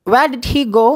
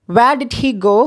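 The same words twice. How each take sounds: The two takes are said the same way.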